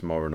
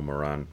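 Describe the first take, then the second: First: Moran with stress on the first syllable; first pronunciation of Moran. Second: Moran with stress on the second syllable; second pronunciation of Moran. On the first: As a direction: say MOR-un, weak second vowel. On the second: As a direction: say muh-RAN, full final vowel. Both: Shown as a demonstration. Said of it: "I don't know if it's".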